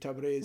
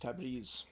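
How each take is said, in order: First: It uses the older classical Persian vowel. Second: It uses the modern Iranian Persian vowel. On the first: This is how speakers from South Asia say it. "the older classical pronunciation of Persian would be Tabriz" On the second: This is how speakers in Iran say it today. "modern Iranian pronunciation is Tabriz"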